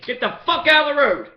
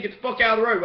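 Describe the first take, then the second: First: Yelled, higher and louder, quoting the cops; a retold yell at a driver; mock shout. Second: Said in the usual way. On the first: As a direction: bark it back like the cops did. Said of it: "Same shit they said to me". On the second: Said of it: "what they said".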